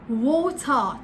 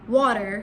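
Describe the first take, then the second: First: The r sound is left silent. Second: The r sound is clearly pronounced. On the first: "But in British English, it's water, water, ta. So we're not really pronouncing the R" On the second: "In American English, the word water is water, water. So, you know, with that R"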